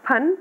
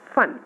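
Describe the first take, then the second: First: फन with aspirated ph, both lips; plain ph. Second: फन with an f sound; फन as fan with a true f; nukta f. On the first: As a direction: say फन with Hindi ph. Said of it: "तो यहाँ हमारा होगा". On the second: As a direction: say फन with Urdu f. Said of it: "और ये". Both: Shown as a demonstration.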